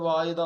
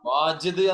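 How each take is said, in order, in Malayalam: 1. മധ്യത്തിലെ വ്യഞ്ജനം 'y' ശബ്ദമാണ്. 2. മധ്യത്തിലെ വ്യഞ്ജനം 'j' ശബ്ദമാണ്. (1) "പക്ഷെ പറയല് വായിദ് എന്നാ" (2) "വാജിദ് എന്നാണ് പറയേണ്ടത്"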